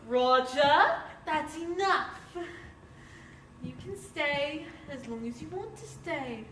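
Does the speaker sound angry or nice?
nice. It is said in a mild, nice tone.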